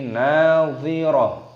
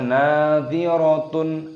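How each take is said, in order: First: The word ends with a soft h sound. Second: The word ends with a full -tun ending. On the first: The speaker calls it right. "tapi nadhirah" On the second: The speaker calls it wrong. "jangan dibaca nadhiratun"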